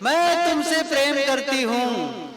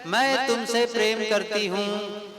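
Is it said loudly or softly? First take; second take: loudly; softly. First: It is said louder, with a raised voice. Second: It is said at a normal, softer volume.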